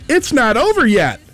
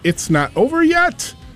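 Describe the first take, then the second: First: It falls like an exclamation. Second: It rises like a question.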